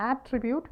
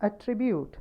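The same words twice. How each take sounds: First: "attribute" as AT-tribute, the contrasting form, rising at the end; rejected reading of "attribute", first syllable stressed. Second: "Attribute" as at-TRI-bute, higher on TRI; careful demo of "Attribute", second syllable prominent; stress on second syllable. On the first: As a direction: hit AT in "attribute" and lift the ending. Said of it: "not attribute". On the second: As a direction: lean on the middle TRI of "Attribute". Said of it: "second syllable". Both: Shown as a demonstration.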